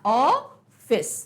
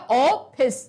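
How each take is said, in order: First: It starts with an open rounded 'aw' vowel. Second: It starts with a closed 'o' vowel. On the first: The speaker calls it right. "हमने ये अर्धचंद्र लगा दिया" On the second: The speaker calls it wrong. "ओ, ऑफिस, क्या हो जाएगा"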